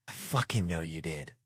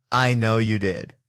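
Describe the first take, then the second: First: Softer, dropped-down certainty; low-voiced accusation. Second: Loud, slow, deliberate; firm accusation. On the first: Detective repeating himself to the suspect, quiet and sure. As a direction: bring it down quietly. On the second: Acted. Detective answering a yelled confession, firm and loud. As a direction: land each word on the suspect.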